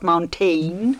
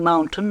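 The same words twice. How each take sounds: First: The last syllable is fully pronounced as spelled. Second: The last syllable is said as in normal speech. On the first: This is how it was wrongly sung. The speaker calls it wrong. "and not mountain" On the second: This is how the word should be sung. The speaker calls it right. "sing mountain"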